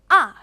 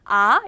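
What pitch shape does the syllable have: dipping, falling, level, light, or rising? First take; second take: falling; rising. First: The pitch falls sharply from high to low. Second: The pitch rises from middle to high. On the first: "세게 내려쳐서" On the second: "이렇게 올려서 발음이 나고요"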